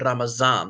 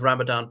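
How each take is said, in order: First: The middle consonant is a Z sound. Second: The middle consonant is a D sound. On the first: "Some people pronounce it Ramazan" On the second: "So that is Ramadan"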